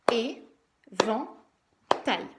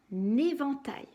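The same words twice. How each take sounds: First: "Éventail" very slowly as é... ven... tail; syllable by syllable. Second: Said in the usual way. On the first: Shown as a demonstration. Teacher clapping out syllables, "Éventail" chopped into é, ven, tail. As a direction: punch out "Éventail" in three separate beats. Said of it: "J'ai tapé combien de fois dans mes mains". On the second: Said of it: "J'ai tapé combien de fois".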